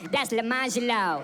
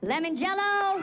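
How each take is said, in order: First: Lemon Jello run together fast as one word, lə-MA-ʒəlo; kid correcting. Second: Lemon Jello, said slowly and carefully, LEM-on JEL-lo; sounded out carefully. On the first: Kid correcting the teacher's pronunciation: Lemon Jello run together. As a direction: slur Lemon Jello into one proud name. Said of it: "You know what he said?". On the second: Teacher reading roll call: careful slow Lemon Jello. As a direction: spell out Lemon Jello syllable by syllable, louder. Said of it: "I sounded it out". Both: Retold or imitated.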